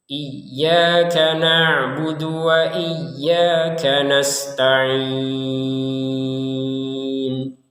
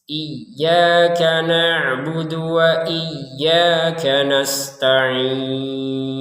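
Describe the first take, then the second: The two takes are said the same way.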